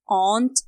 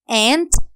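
First: It is said in a British accent. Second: It is said in an American accent. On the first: "aunt British" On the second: "aunt American"

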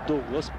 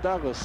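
First: The first vowel sounds like 'oo' in 'food'. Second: The first vowel sounds like 'a' in 'cup'. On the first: This is how Portuguese speakers say the name. "конечно, он Дуглас по-португальски" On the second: This is how English speakers say the name. "по-английски Даглас"

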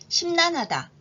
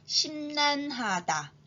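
First: The word is said at normal speed. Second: The word is said slowly. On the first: "이번엔 평균 속도로 말해볼까요?" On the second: "천천히 단어를 발음해 볼게요"

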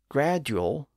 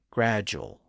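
First: The middle consonant is a plain D sound. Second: The middle consonant is a J sound. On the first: This is the older original pronunciation. "words with a D sound" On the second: This is the pronunciation used today. "they shifted to a J sound"

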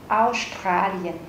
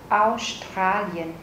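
Both takes have the same delivery.

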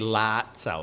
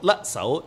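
First: The first vowel is an open 'a' sound. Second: The first vowel is a short 'e' sound. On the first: The speaker calls it wrong. "the Germans always pronounce it wrong. They say lat sao" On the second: The speaker calls it right. "in Cantonese, it would be let, it's short"

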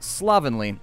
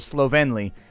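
First: The word has an ordinary, everyday pronunciation. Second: The word has a posh, fancy-sounding pronunciation.

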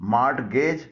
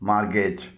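First: The 't' sound is pronounced. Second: The 't' sound is silent. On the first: The speaker calls it wrong. "इसे मार्टगेज न पढ़िएगा" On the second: The speaker calls it right. "इसमें टी silent है"

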